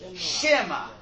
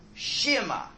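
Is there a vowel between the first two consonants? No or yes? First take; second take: Yes; Yes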